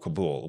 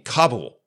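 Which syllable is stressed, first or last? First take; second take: last; first. First: The stress is on the last syllable. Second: The stress is on the first syllable. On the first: "with the accent being on the last syllable" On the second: "with the accent on the first syllable"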